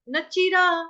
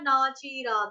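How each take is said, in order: First: The vowel in na is short, no gap. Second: The vowel in na is long, with a gap. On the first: The speaker calls it right. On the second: The speaker calls it wrong. "इसमें gap अगर दे दोगे ना, ना बोलोगे तो क्या हो जाएगा?"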